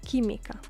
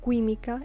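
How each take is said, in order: First: No 'w' sound follows the first 'k'. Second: A 'w' sound follows the first 'k'. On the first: The speaker calls it right. "the U ... is not pronounced" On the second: The speaker calls it wrong. "not química"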